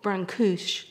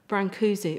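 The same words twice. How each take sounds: First: The name is said with a Romanian pronunciation. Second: The name is said with an English pronunciation.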